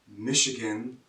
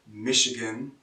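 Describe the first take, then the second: No difference in how they are said.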